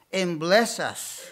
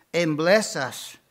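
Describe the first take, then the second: No difference in how they are said.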